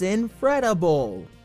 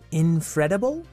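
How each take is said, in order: First: The voice falls at the end, like a statement. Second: The voice rises at the end, like a question. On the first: The speaker is stating the title. The speaker calls it right. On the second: The speaker is asking about the title. The speaker calls it wrong.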